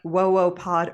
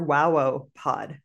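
First: The first syllable sounds like 'whoa'. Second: The first syllable sounds like 'wow'. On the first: "like whoa, like on Blossom?" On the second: "or is it wow?"

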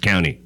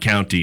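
First: The T in the middle is dropped. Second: The T in the middle is clearly pronounced. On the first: The speaker calls it right. "you don't pronounce the T" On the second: The speaker calls it wrong. "It's not county"

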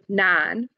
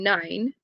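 First: The vowel is a flat 'ah' without gliding. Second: The vowel glides from 'ah' toward 'ee'. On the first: "they've said nan" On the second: "they're saying nine"

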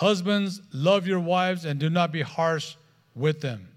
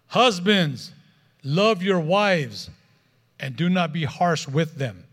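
First: It is said at a quieter, normal volume. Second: It is said at a louder volume.

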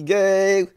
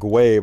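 First: The name is said without a 'w' glide. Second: The name is said with a 'w' glide. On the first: The speaker calls it right. "I know how to pronounce it" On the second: The speaker calls it wrong. "I called it Gway before"

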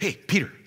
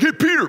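First: It is said softly and gently. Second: It is said roughly and forcefully.

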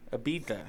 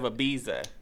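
First: The middle consonant is a soft th sound. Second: The middle consonant is a z sound. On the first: The speaker calls it right. "pronounce it with a TH" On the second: The speaker calls it wrong. "not with a Z"

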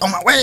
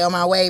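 First: It is said urgently and excitedly. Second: It is said calmly and flatly.

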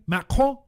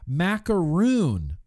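First: The word is pronounced the French way, macaron. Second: The word is pronounced the English way, macaroon. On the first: The speaker calls it right. "French pronunciation" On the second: The speaker calls it wrong. "I say macaroon, but it's not macaroon"

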